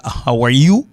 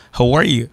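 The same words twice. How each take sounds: First: "How are you" with a full rising "you"; the rejected form. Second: "How are you" as falling "how-war-yuh"; reduced accent form. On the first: Teacher showing what it isn't, "How are you" with full you. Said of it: "Li pa". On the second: Teacher correcting, "How are you" with reduced falling you. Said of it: "Men li". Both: Shown as a demonstration.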